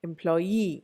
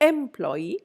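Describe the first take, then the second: First: The stress is on the last syllable. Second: The stress is not on the last syllable. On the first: The speaker calls it right. "Last syllable" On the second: The speaker calls it wrong. "I don't say employee"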